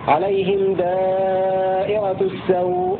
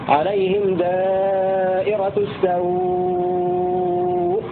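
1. تُمَدّ الحركة التي قبل الهمزة الأخيرة مدًّا قصيرًا. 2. تُمَدّ الحركة التي قبل الهمزة الأخيرة أطول مدّ. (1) "2 حركات" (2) "6 حركات"

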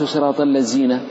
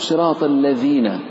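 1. تبدأ الكلمة الثانية بصوت 'z'. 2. تبدأ الكلمة الثانية بصوت 'dh'. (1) "لم أخرج الحرف من مخرجه" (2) "فالذال تخرج من طرف اللسان مع أطراف الثنايا العليا"

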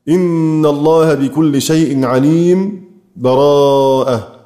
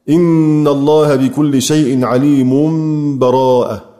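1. تأتي سكتة صامتة قصيرة قبل الكلمة الأخيرة. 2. تُوصل العبارتان دون سكتة بينهما. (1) "والسكت" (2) "والوصل"

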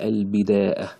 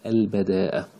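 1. المقطع الأول فيه الصوت i. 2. المقطع الأول فيه الصوت a. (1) "بالكسر كذلك" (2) "بفتح الباء"

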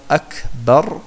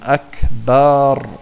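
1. Der letzte Vokal A ist kurz. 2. Der letzte Vokal A wird lang gezogen. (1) "statt Akbar" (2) "Das A zu lange zieht"

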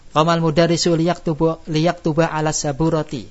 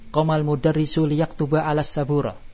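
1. Kata terakhir berakhir dengan vokal akhirnya yang utuh. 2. Kata terakhir berakhir tanpa vokal akhirnya. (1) "yang kita lakukan adalah yang bukan fasihnya untuk tujuan tadi" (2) "kalau bacaan fasihnya, akhir kata itu ketika waqaf enggak boleh dibaca"

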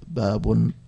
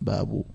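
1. تنتهي الكلمة بصوت -un مضاف. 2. تنتهي الكلمة بحركة -u قصيرة. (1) "والتنوين" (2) "والضم"

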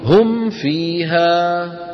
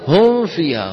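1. الميم مغلقة بوضوح تام قبل f. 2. الميم خفيفة ومستترة قبل f. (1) "هذا المطلوب" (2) "فيأتي بما يشبه الإخفاء"

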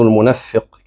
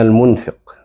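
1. صوت الفاء مشدد ومطوّل. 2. صوت الفاء قصير ومفرد. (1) "اللي انا حافظه المنفق كده" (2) "النون ساكنة والفاء مكسورة بلا شدة"

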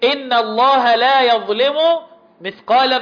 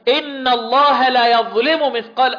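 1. الصوت في 'la' طويل. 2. الصوت في 'la' قصير.

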